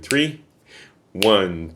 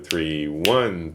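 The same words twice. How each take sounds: First: There is a silent gap after three. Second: One follows three with no gap. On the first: An extra silent fourth beat is counted. The speaker calls it wrong. "Don't pause after three because some beginners count it" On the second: Only three beats are counted per measure. The speaker calls it right. "Immediately after three, steady beat, it should be one"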